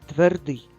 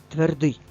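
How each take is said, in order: No difference in how they are said.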